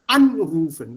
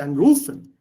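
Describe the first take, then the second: First: ANrufen, loud on the first syllable; right stress on AN. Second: AnRUfen, stress on the second syllable; mock-wrong stress on RU in anrufen. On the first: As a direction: punch AN in Anrufen. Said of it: "This is the accent". (richtige Betonung auf AN in Anrufen) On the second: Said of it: "This is wrong". (falsche Betonung auf RU in anrufen) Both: Shown as a demonstration.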